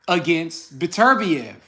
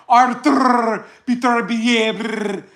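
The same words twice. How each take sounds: First: Said in the usual way. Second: Slow, exaggerated fake Russian accent; mock accent. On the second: Imitating West Coast channels, slow fake Russian accent. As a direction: drag out the name in a mocking Russian accent. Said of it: "they be like".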